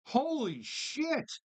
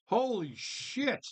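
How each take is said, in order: First: Higher, slow stretched amazement; amazed disbelief. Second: Amazed. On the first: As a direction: drag it out in shock. Repeating louder disbelief. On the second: Reacting to forty dollar price. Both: Real, not acted.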